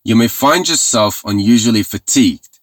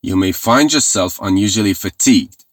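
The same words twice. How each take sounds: The two takes are said the same way.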